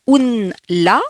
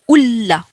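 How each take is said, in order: First: The n sound is clearly pronounced before l. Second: The n disappears, merged into a doubled l. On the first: The speaker calls it wrong. "au lieu de dire un la" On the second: The speaker calls it right. "on va dire ulla"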